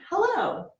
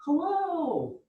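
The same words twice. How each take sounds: First: A very high, sing-song hello; high bright hello. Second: A high, falling sing-song hello; a different cheerful hello, up high. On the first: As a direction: greet them way up high. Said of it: "I say hello like this". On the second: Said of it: "You might say it like this". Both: Shown as a demonstration.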